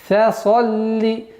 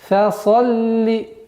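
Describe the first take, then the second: The two takes are said the same way.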